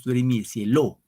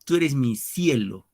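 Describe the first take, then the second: First: "cielo" stressed on the last syllable, LO; wrong stress on LO. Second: Slow, with "cielo" stressed on its first syllable, CIE; stress on SIE. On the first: Teacher shows what we do not say, "cielo" stressed on LO. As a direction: shift the accent to the end of "cielo", cieLÓ. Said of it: "No, no decimos". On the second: Teacher confirms the answer by example, "cielo" stressed on CIE. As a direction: lean on CIE in "cielo", letting LO fall. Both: Shown as a demonstration.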